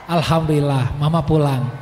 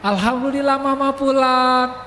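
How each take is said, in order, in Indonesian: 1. Diucapkan dengan nada tenang dan lega. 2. Diucapkan dengan nada ceria dan gembira.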